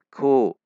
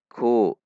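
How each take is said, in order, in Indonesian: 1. Bunyi k ringan, lidah tetap rendah. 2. Bunyi k ringan, lidah tetap rendah.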